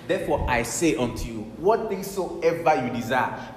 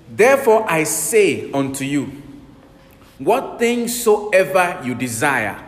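First: Said in the usual way. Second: Slow, loud, weighty scripture reading; solemn scripture reading. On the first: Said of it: "This is Jesus speaking". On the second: Shown as a demonstration. Preacher reading Jesus' words to the congregation, slow and loud. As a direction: lay out each word of the verse slowly. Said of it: "Verse twenty-four, Mark eleven".

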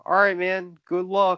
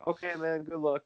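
First: Imitating calm. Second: Soft, easy-going good luck; imitating calm fighter. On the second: Enforcer calmly accepting a fight, soft and relaxed. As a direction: shrug it off like nothing's at stake. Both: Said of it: "Like, so calm".

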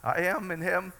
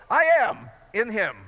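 First: Less bold. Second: "I am in him" said louder and slower, each word planted; bold declaration. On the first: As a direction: say "I am in him" like you barely believe it. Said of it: "some days I feel more bold in that than others". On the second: Preacher showing the congregation how to claim it, bold and loud. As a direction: declare "I am in him" with full conviction. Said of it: "some days I feel more bold in that". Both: Shown as a demonstration.

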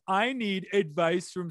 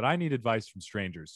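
First: Sarcastic. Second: Said in the usual way. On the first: Shown as a demonstration. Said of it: "they made it all sarcastic". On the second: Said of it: "I don't know why".

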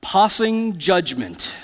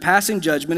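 First: Snooty British pig, drawn out slowly; haughty, slow British pronunciation with chin lifted; British accent. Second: Said in the usual way. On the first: Acted. Pig boasting to a porcupine in a movie, haughty British accent. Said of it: "lifts his little chin in a British accent".

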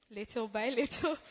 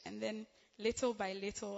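First: Laughing. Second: Said in the usual way. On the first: Real, not acted. Laughs mid phrase.

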